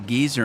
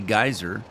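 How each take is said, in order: First: It is said the British way, like geezer. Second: It is said the American way, like guy-zer.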